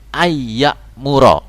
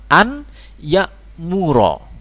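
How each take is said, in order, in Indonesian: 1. Bunyi n menyatu menjadi y ganda yang berdengung. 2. Bunyi n diucapkan dengan jelas sebelum y. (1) "an ketemu ya idgham ya. Idgham bi gunnah" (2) "Maka kita baca an ya'muro"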